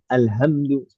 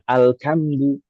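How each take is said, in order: First: It is said with a soft plain h. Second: It is said with a k sound. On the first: "dengan ha" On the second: "dibaca dengan kaf"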